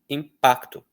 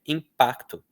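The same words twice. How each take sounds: The two takes are said the same way.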